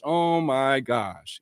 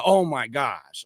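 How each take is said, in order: First: Slow drawn out oh my gosh. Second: Slow oh my gosh. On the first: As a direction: say "Oh my gosh" very slowly. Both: Real, not acted. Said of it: "slow exclaim".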